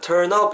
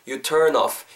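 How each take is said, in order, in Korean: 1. 마지막 단어는 p 소리로 끝나요. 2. 마지막 단어는 부드러운 f 소리로 끝나요. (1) "P 사운드가 난단 말이에요" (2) "윗니가 아랫입술에 닿은 상태로 자연스럽게 불어주시면 돼요"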